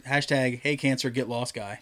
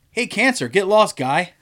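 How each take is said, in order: First: Said in the usual way. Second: Higher, chummy Canadian voice; mock Canadian slogan. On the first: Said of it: "It says". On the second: Guy's wristband slogan, hammed-up cheery Canadian. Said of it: "rubber wristband that says".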